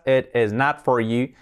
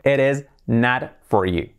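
First: Slow "It is not for you" with words kept apart; before linking. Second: Slow "It is not for you" with "it is" linked as "eres"; joined-up "It is not for you", tapped T; linked soft R. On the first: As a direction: clear T in "It is", words unlinked. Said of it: "necesitamos ahora el linking". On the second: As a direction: flap the T of "It is" into a soft R. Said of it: "se convierte en una R suave". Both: Shown as a demonstration.

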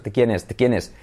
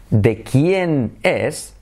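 First: "de quién es" run together fast; quick, barely separated "de"; said quickly. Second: "de quién es" drawn out very slowly; careful, spaced-out teaching delivery; slow and deliberate. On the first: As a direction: rattle off "de quién es" as one word. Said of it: "cuando lo dices rápido". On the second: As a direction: stretch each word of "de quién es" apart. Slow model phrase, later said fast. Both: Shown as a demonstration.

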